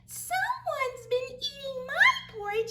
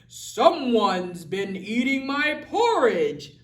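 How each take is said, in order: First: It is said in a tiny, small voice. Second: It is said in a big, deep voice. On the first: "in his wee small voice" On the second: "his great huge voice"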